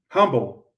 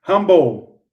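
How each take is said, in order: First: Said in the usual way. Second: Yelled. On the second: Real, not acted. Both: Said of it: "I'm yelling and screaming that".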